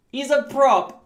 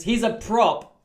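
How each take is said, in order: First: Higher, louder, thrilled emphasis; excited. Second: Said in the usual way. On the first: Real, not acted. Telling viewers his player is a prop, excited and louder. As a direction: shout it out in delight.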